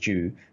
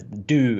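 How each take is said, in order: First: It begins with a J sound, like 'jew'. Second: It begins with a plain D, like 'doo'. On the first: This is how the speaker's own community says it. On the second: This is how Americans say it. "as the Americans would say"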